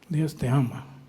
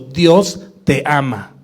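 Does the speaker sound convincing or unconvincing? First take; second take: unconvincing; convincing. First: It is said in an unconvincing, half-hearted way. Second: It is said sincerely and convincingly.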